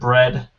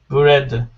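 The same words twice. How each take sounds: First: The word is said as one syllable. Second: An extra vowel splits the word into two syllables. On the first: The speaker calls it right. "that's one syllable" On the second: The speaker calls it wrong. "that feels like a different word. it's not the same one syllable"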